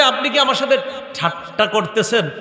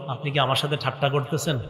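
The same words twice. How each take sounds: First: Mock astonished servant; incredulous question. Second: Softer, lower version of the question; hushed disbelieving servant; quiet incredulous question. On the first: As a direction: ask it in amazed disbelief. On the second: Acted. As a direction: say it low and wondering. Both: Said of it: "এই যে বলবে".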